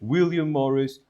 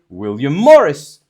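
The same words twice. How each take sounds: First: The first name is stressed more strongly. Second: The last name is stressed more strongly. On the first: The speaker calls it wrong. "instead of saying" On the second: The speaker calls it right. "you have to say"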